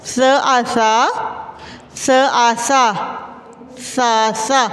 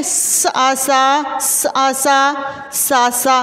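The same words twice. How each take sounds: First: सासा with a gentle, soft स. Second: सासा with a hard, stretched स, the wrong way; सासा very slow with a harsh स, as a wrong example. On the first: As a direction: say सासा softly, the right way. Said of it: "नरमी के साथ". (सासा में स नरमी के साथ) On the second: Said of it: "क्या हम इसको इस तरह पढ़ सकते हैं". (सासा में स कड़ा और खींचकर, गलत तरीके से) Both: Shown as a demonstration.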